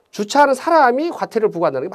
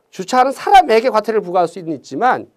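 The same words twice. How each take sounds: First: 사람이 stretched and set apart as the faulty subject; stress on 사람이. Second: 사람에게 picked out with emphasis on the particle 에게; stress on 사람에게. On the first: Teacher showing the faulty wording, 사람이 stressed for contrast. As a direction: lean on the particle 이 in 사람이. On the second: Teacher giving the workable wording, 사람에게 stressed for contrast. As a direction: lean on 에게 in 사람에게. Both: Shown as a demonstration. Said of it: "말이 안 되죠".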